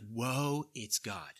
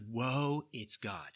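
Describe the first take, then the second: First: It sounds awed and full of wonder. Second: The same.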